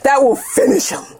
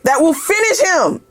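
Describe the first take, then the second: First: It is said in a Mortal Kombat announcer voice. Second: It is said in her normal speaking voice.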